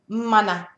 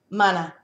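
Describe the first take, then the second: First: The vowels are drawn out longer. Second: The vowels are clipped shorter. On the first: It names a place. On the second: It means creative power.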